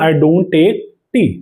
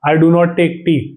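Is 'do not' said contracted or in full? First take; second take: contracted; full. First: It is contracted to don't, final t silent. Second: The words do not are said in full. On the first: "ये जो टी होता है, ये आपका silent रहेगा" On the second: "जैसे कि डू नॉट होता है ना"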